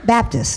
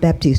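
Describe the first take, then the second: First: The name ends with a short 'tist' sound. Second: The name ends with a long 'teest' sound. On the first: The speaker calls it right. "Baptist, not Baptiste" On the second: The speaker calls it wrong. "not Baptiste. Don't put an E on. He's not from New Orleans"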